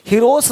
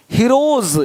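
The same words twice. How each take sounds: First: "हीरोज" said as hee-ros, with s; "हीरोज" with s in place of z; wrong s ending. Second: "हीरोज" ending in a buzzing z. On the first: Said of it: "हीरोज नहीं". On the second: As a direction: say "हीरोज" as hee-roz, z at the end. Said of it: "ज का sound आ रहा है". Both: Shown as a demonstration.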